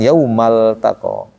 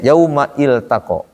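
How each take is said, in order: First: The 'i' is dropped, words joined together. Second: The 'i' of iltaqo is kept, words apart.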